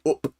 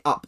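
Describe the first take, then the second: First: "up" said with the short northern vowel, like "oop". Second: Said in the usual way. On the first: Shown as a demonstration. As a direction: say "up" the Northern English way, rhyming with "hoop" cut short. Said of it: "they don't say up". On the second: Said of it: "they say up".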